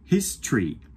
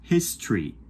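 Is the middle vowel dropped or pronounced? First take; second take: dropped; dropped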